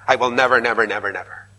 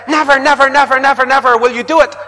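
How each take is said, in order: First: Fading vow. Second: Loud, high, defiant never; dug-in refusal. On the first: Mock vow of never. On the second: An entrenched person vowing never, loud and high. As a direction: shout the never with heels dug in. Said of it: "you dig your heels in". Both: Retold or imitated.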